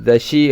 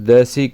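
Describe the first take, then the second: First: The middle consonant is a 'sh' sound. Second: The middle consonant is a plain 's' sound. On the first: It follows the northern Sanskrit-style pronunciation. The speaker calls it wrong. "ஷிங்கிறது வடமொழி உச்சரிப்பு" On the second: It follows pure Tamil pronunciation. The speaker calls it right. "தசின்னு சொல்லிடணும்"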